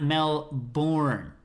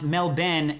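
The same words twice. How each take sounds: First: Melbourne drawn out slowly as mel-BORN; slow, full "born" ending on Melbourne; spelled-out pronunciation. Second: Melbourne said as MEL-bin, ending short; Melbourne with a clipped "bin" second syllable; local pronunciation. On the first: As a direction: say Melbourne with a long "born" and a clear R. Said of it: "not Melbourne". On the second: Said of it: "which is pronounced Melbourne". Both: Shown as a demonstration.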